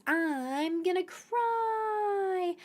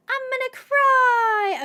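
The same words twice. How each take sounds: First: Slow whiny mock sob; slow, higher, whimpering gonna cry. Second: High, loud, slow pretend wail; slow, much higher wailing cry; mock wail. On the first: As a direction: pretend to be close to tears. Fearing the pack fails. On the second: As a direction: ham up the despair. Repeats louder.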